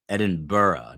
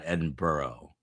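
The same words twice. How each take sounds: First: The word is said with a British pronunciation. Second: The word is said with an American pronunciation. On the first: The speaker calls it right. "Edinburgh is how it is pronounced in the U K" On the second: The speaker calls it wrong. "not Edinburgh. That's the Jersey in me"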